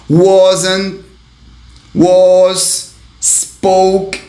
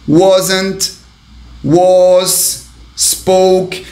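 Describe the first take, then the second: No difference in how they are said.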